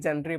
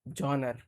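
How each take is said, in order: First: It is said like 'jen-ree' with an 'e' vowel. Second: It is said like 'jahn-er' with an 'o' vowel. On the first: The speaker calls it wrong. "मैं भी छोटा में इसको बिल्कुल गलत पढ़ता था" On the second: The speaker calls it right. "तो पता चला इसको जॉनर पढ़ते हैं"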